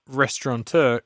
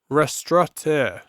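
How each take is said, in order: First: The word is said with an N sound. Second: The word is said without an N sound. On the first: The speaker calls it wrong. "it's actually not restaurateur" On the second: The speaker calls it right. "There's no N in the word"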